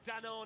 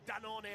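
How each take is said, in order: First: The name is pronounced the English way. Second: The name is pronounced the Italian way.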